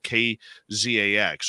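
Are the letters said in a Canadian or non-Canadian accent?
non-Canadian. The letters are said without a Canadian accent.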